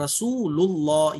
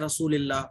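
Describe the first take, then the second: First: The middle syllable is a heavy u-vowel lul. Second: The middle syllable is said with an i vowel. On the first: The speaker calls it right. "यहां पे भी मोटा लुल" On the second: The speaker calls it wrong. "रसूलिल्लाह लोग पढ़ते हैं रसूलिल्लाह, तो रसूलिल्लाह अगर आप पढ़ोगी तो गलत हो जाएगा"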